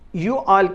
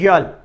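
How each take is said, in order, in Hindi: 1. यह दो अलग शब्दों के रूप में बोला जाता है। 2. यह एक ही उच्चारण-खंड में संकुचित हो जाता है, 'y'all'।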